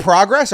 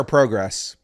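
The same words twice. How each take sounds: First: "progress" with an open AH first vowel; PRAH-gress pronunciation. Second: "progress" with a long O first vowel; PROH-gress pronunciation. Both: Shown as a demonstration. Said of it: "You say progress or progress".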